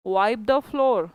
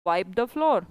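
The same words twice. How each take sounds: First: Each word drawn out slowly for the class; very slow model answer. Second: Said in the usual way. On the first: Shown as a demonstration. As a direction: spell it out slowly so they can copy. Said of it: "क्या बोलोगे". (बहुत धीरे, हर शब्द खींचकर) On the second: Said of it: "What you will say".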